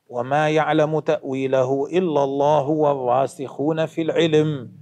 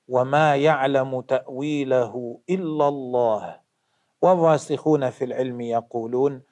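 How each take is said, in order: First: It runs on past الله, pausing after العلم. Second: There is a pause right after الله.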